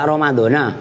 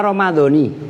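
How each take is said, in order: First: The word ends with an 'a' vowel. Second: The word ends with an 'i' vowel. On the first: The speaker calls it wrong. "Ramadhana salah" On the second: The speaker calls it right. "Kenapa dibaca Ramadhani?"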